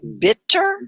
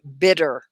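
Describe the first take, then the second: First: The middle consonant is a crisp, clear T. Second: The middle consonant is a soft D-like sound. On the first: The speaker calls it wrong. "we wouldn't say bitter" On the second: The speaker calls it right. "sometimes that T will sound like a D. ... we would say bitter"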